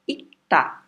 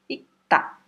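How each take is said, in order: First: Said in the usual way. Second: Ita dita alta, sem o r e o g; ita, só i e ta bem claros; pronunciation demo. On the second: Shown as a demonstration. (ita pronunciado alto e limpo, sem o rg) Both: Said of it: "A pronúncia dele vai ser ita".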